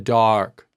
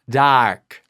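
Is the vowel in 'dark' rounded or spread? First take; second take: rounded; spread. First: The vowel is said with rounded lips. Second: The vowel is said with spread lips. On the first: "Dark is more rounded" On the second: "how he's spreading his mouth"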